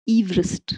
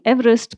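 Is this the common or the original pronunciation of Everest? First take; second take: original; common. First: It is the namesake's own, different pronunciation. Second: It is the usual modern pronunciation of the name. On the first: This is how the man himself said his name. "He pronounced it Everest" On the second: This is how the mountain is usually called. "I'm saying Everest, but that's not how he pronounced his name"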